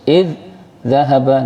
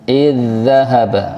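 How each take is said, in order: First: The doubled sound is split with a break. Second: The doubled sound is pressed together as one. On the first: The speaker calls it wrong. "jangan sampai putus ... tidak boleh" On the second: The speaker calls it right. "tekan lagi"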